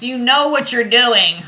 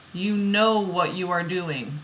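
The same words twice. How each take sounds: First: Loud, high, drawn-out exclamation; exclaimed yell. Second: Said in the usual way. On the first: Acted. Card reader acting out the oracle's guidance, yelling. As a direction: belt out the guidance, slowly and high, amused. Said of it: "She's yelling at you". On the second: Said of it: "Exclamation point".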